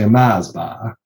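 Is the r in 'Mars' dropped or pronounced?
dropped. The r is dropped, Drogheda style.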